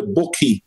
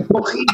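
First: Bucky said the Mancunian way, short u like "pook-ee"; Manchester accent. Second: Bucky with a throaty Scouse k, like clearing the throat; Scouse accent. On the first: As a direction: say Bucky like a Manc. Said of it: "as we would say in Manchester". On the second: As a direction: rasp the k in Bucky, Scouse style. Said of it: "It sounds like they're clearing their throat". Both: Retold or imitated.

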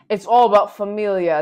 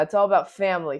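First: Familia said the Spanish way, fa-MEE-lya, loud. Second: Said in the usual way. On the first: Pretend. Speaker tossing in Dom's family motto, Spanish familia. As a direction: stress all, end on a Spanish familia. Repeats the family line two ways.

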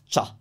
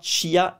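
First: CHA in one syllable, i silent; correct one sound. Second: CHIA split as chee-a; wrong two-sound version. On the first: Teacher correcting to one-syllable CHA. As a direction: say "cha" as a single short beat. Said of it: "C I A is one sound". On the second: Teacher showing what to avoid, CHIA with a separate i. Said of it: "It's not". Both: Shown as a demonstration.

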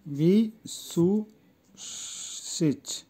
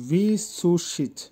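First: ভিসুসিচ very slowly, long gaps between syllables. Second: Said in the usual way. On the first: Shown as a demonstration. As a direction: stretch ভিসুসিচ out piece by piece for learners. New word broken up for learners. (ভিসুসিচ খুব ধীরে, ভেঙে ভেঙে)

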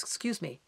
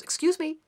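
First: Low, quiet, disapproving "Excuse me"; a low, hushed stickler's "Excuse me"; prim Capricorn. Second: A high, huffy stickler's "Excuse me"; indignant Capricorn. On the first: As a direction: clamp down on the rule-breaker. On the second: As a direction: bristle at the rudeness. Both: Retold or imitated. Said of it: "And Capricorn goes".

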